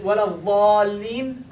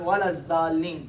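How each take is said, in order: First: The second word begins with a 'th' sound. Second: The second word begins with a 'z' sound. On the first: The speaker calls it right. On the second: The speaker calls it wrong.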